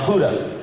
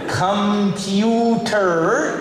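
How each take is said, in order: First: The first syllable is dropped, giving puda. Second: The first syllable is kept, giving computer.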